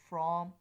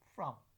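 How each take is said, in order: First: The vowel is full and clearly pronounced. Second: The vowel is reduced to a schwa. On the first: "From in strong form" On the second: "from in the weak form"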